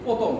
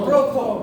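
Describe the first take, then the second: First: The middle consonant is unaspirated, without a breath. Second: The middle consonant is aspirated, with a breath. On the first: The speaker calls it wrong. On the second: The speaker calls it right.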